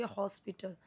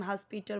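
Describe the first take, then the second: First: हॉस्पिटल with a rounded o up front; soft model हॉस्पिटल starting "hos"; correct English pronunciation. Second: हॉस्पिटल with an a in the first syllable; हॉस्पिटल said Hindi-style, starting "has"; wrong pronunciation. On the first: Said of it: "English में आप क्या बोलोगे". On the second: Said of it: "तो वो wrong होता है". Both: Shown as a demonstration.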